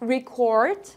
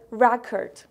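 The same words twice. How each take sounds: First: The stress is on the second syllable. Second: The stress is on the first syllable. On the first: It is used as a verb. "In verb, we pronounce it as record" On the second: It is used as a noun. "when we're using as it as a noun, we say record"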